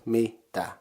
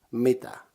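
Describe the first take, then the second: First: "mitä" in two parts, mi, gap, tä; syllable by syllable. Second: Said in the usual way. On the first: Shown as a demonstration. Teacher combining the two syllables, "mitä" still split in two. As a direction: say "mitä" with a break after mi. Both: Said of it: "Combining them you get".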